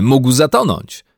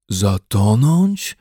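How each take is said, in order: First: Said in the usual way. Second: Very slow, disbelieving echo; disbelief. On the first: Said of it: "przyłączył się Jonathan". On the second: A narrator's reading. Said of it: "powtórzył z niedowierzaniem". (z niedowierzaniem)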